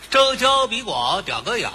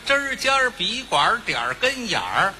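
First: The phrase is slurred and the er sound is lost. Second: The phrase is said clearly with the er sound. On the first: The speaker calls it wrong. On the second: The speaker calls it right.

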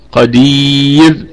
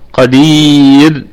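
The two takes are said the same way.

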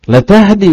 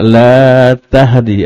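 First: The vowel in 'la' is short. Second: The vowel in 'la' is long. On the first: The addressee truly gives guidance. The speaker calls it right. "laknya dibaca pendek" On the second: The addressee does not give guidance. The speaker calls it wrong. "Kalau la di sini dibaca panjang"

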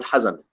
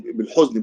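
First: The first vowel is an 'a' sound. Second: The first vowel is an 'u' sound.

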